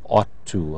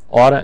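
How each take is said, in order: First: Every word is pronounced fully and separately. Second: The words are reduced and run together.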